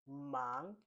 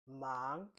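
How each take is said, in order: The two takes are said the same way.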